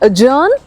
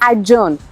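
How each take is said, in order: First: No 'd' sound comes before the 'j'. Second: A clear 'd' sound comes before the 'j'. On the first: The speaker calls it right. "ड की बिल्कुल भी आवाज नहीं आएगी" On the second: The speaker calls it wrong. "It's not एडजर्नमेंट या एडजर्न"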